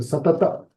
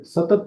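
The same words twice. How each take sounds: First: "सतत" said sa-ta-ta; final vowel sounded. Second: "सतत" cut short as sa-tat; dropped final vowel. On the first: Teacher showing the taught form, "सतत" with final a. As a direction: finish "सतत" on a short a. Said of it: "ऐसा बोलते हैं". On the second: Teacher showing the form not used, "सतत" as sa-tat. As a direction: end "सतत" on a bare t. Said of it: "ये सतत नहीं बोलते". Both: Shown as a demonstration.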